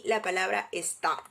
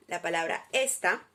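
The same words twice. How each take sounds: First: "está" stressed on its last syllable, es-TÁ; stress on final A. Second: "esta" stressed on its first syllable, ES-ta. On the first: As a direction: land firmly on the final A of "está". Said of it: "con la tilde en la vocal A". ("está" con el acento en la última sílaba) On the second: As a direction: land firmly on the ES of "esta". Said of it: "con tilde en la E". ("esta" con el acento en la primera sílaba) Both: Shown as a demonstration.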